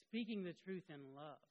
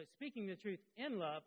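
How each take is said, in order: First: "speaking" hit louder, then easing off; stress on "speaking". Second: "in love" lifted higher and louder; stress on "in love". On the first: Preacher rewording his key phrase, stress on "speaking". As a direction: put the weight on "speaking". Second version after "or. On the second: Preacher restating his key phrase, stress on "in love". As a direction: lean hard on "in love". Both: Shown as a demonstration.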